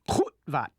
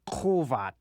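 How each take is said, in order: First: The sound cuts off abruptly mid-word. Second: The sound flows smoothly without a mid-word cutoff. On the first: The speaker calls it right. "The correct pronunciation is goedvat" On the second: The speaker calls it wrong. "not kovat"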